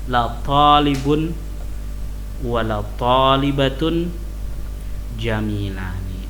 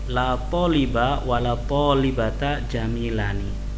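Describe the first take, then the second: First: The nouns end with a nasal -un ending. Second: The nouns end with a short -a vowel. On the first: The particle la has no grammatical effect. "Dia bisa menjadi mubtada" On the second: The particle la governs the nouns. "dibaca nasab, la taliba sebagai isimnya la"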